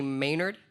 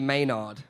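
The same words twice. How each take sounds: First: It is said with a typical American pronunciation. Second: It is said with a non-American pronunciation. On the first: The speaker calls it wrong. "Americans normally would say Maynard" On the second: The speaker calls it right. "but it's actually Maynard"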